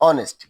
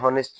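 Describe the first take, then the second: First: The word begins directly with a vowel. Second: The word begins with an h sound. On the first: The speaker calls it right. "এটা কি অনেস্ট" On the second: The speaker calls it wrong. "আসলে এটা হনেস্ট নয়"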